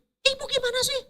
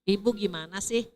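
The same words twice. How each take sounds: First: It is shouted loudly and high. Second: It is said calmly and quietly.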